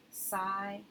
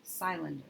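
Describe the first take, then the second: First: Cylinder sounded out with a long "sigh" in the first syllable; wrong long vowel. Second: Cylinder blended as "sigh-linder" with a long first vowel; blended wrong reading. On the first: Teacher modelling a wrong try from an open syllable. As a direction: read cylinder as "SIGH-lin-der". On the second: Teacher blending the mistaken reading before correcting it. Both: Shown as a demonstration. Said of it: "That doesn't quite sound right".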